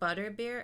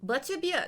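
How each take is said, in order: First: It is said in the speaker's normal accent. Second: It is said in a put-on German accent.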